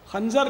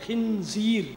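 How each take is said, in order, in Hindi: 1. शब्द 'khanjar' की तरह बोला जाता है। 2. शब्द 'khinzeer' की तरह बोला जाता है। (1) "आमतौर पर लोग इसको खंजर या खंजर बोलते हैं। खंजर नहीं है" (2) "अरबी में खिंजीर बोलते हैं"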